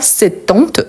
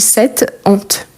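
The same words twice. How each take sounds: First: The two words are run together without a break. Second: The two words are kept separate, not linked. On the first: The speaker calls it wrong. "on ne dit pas cette honte" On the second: The speaker calls it right. "on dit cette honte ... je ne peux pas prononcer ensemble"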